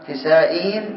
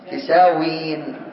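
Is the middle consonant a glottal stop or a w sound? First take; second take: glottal stop; w sound. First: The middle consonant is a glottal stop. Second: The middle consonant is a w sound. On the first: "نبقي الهمزة" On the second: "نقلبها واوا"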